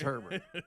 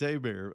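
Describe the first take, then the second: First: The name is said the northern, English-style way. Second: The name is said the down-south, French-style way. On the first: This is how people up north say it. "Up here, it's Herbert" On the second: This is how locals in the south say it. "if you're down there, it's Abear"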